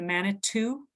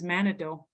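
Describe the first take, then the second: First: The middle consonant is a T sound. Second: The middle consonant is a D sound. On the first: This is how French and English speakers wrote it down. "Manitou, right, with the T" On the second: This is closer to how Ojibwe speakers hear it. "we would spell that with a D"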